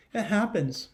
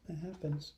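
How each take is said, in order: First: Said in the usual way. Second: Much softer knowing repeat; near-whispered aside. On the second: Shown as a demonstration. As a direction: breathe it out, hushed. Teacher reassures children.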